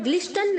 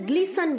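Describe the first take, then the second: First: A t sound is pronounced in the middle. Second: No t sound is pronounced in the middle. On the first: The speaker calls it wrong. "हमें ग्लिस्टन नहीं बोलना है" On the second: The speaker calls it right. "यहां पर टी silent है बच्चों, टी sound नहीं करेगा"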